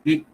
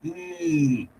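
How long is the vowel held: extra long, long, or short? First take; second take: short; extra long. First: The vowel is held very briefly. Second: The vowel is stretched out very long. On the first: "छोटी सी ई होगी" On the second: "तीन से ज्यादा मात्राओं तक इस ई को खींचना है, एक्स्ट्रा लॉन्ग करना है"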